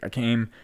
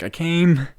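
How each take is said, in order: First: Said in the usual way. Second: Higher, louder insistent repeat of "I came"; louder insistence. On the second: Retold or imitated. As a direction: press "I came" up high and loud. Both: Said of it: "And she's like".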